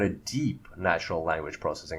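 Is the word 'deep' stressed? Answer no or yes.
yes. The word deep is clearly stressed. The speaker calls it right.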